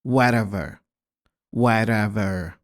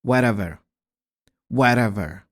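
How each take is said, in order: The two takes are said the same way.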